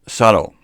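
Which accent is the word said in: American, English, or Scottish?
American. It is said in an American accent, flat T. "American, with a flat T"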